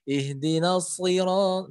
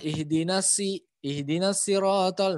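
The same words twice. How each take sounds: First: "siro-" with a thick emphatic s, slow; shad tebal. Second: "sirotol" with thin s, drawn out slowly; salah jadi sin. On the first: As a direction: recite "siro-" slowly, tongue back raised. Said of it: "pangkal lidahnya naik". ("siro-" tebal, pangkal lidah naik) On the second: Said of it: "kalau pangkal lidahnya nggak naik". ("sirotol" dengan s tipis seperti sin) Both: Shown as a demonstration.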